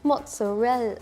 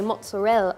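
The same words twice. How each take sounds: First: It is said with an Italian accent. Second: It is said with a British accent. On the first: The speaker calls it right. "That's it" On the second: The speaker calls it wrong. "that's a British accent, no"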